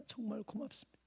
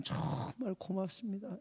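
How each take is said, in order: First: Much softer "정말 고맙습니다" fading away; fading hushed thanks; near-whispered thanks. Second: Softer, tender "정말 고맙습니다"; hushed heartfelt thanks. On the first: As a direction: barely breathe "정말" with a slight rise. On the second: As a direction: murmur "고맙습니다" gratefully into his ear. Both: Retold or imitated. Hugging the weeping elder.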